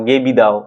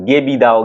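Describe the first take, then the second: No difference in how they are said.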